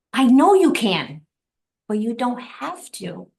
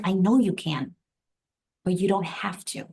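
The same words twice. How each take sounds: First: Slow, high repeat, starting loud and easing off; emphatic revelation. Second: Imitating his calm, unhurried reassurance; calm husband. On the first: Retold or imitated. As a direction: marvel at each word, drawn out. Repeats husband's words as a revelation. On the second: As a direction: quote him evenly, without any push. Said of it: "the man is just so calm".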